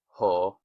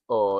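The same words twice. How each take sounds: First: "ho" with a clear breathy h before the o; right pronunciation. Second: "O" said as a bare vowel with no h sound; wrong pronunciation. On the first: Greek teacher showing the right way: "ho" with an h. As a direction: start "ho" with an audible h. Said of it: "it's pronounced ho". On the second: Greek teacher showing the wrong way: "O" with no h. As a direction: say "O" plainly, no breath before it. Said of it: "it's not pronounced O". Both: Shown as a demonstration.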